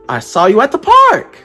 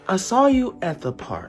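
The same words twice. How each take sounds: First: The pitch rises at the end. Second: The pitch falls at the end. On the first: "With a rising inflection" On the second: "with a falling inflection"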